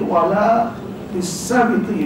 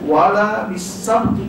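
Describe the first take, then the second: First: The 'b' is followed by an 'i' vowel. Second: The 'b' is followed by no vowel. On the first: "bagi bawah boleh" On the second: "bagi mati boleh"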